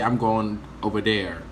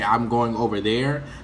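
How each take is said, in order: First: The th sound in 'there' is replaced. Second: The th sound in 'there' is pronounced. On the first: "they cannot pronounce the T H sound" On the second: "if they want to say"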